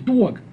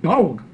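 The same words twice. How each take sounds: First: The word is said with a Brooklyn accent. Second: The word is said with a Dallas accent. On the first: "Where I grew up in Brooklyn, we pronounce this word properly" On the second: "I live in Dallas now, and they pronounce it"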